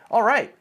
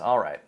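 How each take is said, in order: First: It is said with lively, excited energy. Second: It is said flatly, with reluctant low energy. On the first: The person is happy to go. "you sound very excited" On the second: The person doesn't really want to go but agrees anyway. "you roll your eyes"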